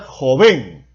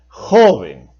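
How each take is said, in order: First: The stress is on the last syllable. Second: The stress is on the first syllable. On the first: The speaker calls it wrong. "¿Debo pronunciar joven o debo pronunciar joven?" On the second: The speaker calls it right. "Por supuesto que debe pronunciarse joven. Por lo tanto, es en la penúltima sílaba"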